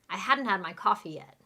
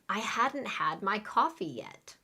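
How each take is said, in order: First: The sentence is said very fast. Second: The sentence is said at a normal speed.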